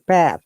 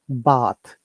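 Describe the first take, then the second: First: It is said with an American vowel. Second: It is said with a British vowel. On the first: "in American English, they say they do not pronounce a, they pronounce o" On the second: "we stress and we relax. We call it relaxed"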